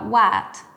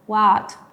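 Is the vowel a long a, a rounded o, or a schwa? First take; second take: long a; long a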